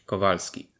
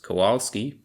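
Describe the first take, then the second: First: The middle consonant sounds like a V. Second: The middle consonant sounds like an English W. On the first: The speaker calls it right. "W is pronounced like a V" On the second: The speaker calls it wrong. "is not pronounced Kowalski"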